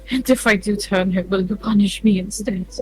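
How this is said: It is spoken in a British accent. The speaker calls it wrong. "Why is why am I British?"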